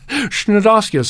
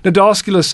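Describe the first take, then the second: First: It begins with a shn sound. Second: It begins with a plain n sound. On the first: The speaker calls it wrong. "I was gently corrected years ago" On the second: The speaker calls it right. "starts with a silent C"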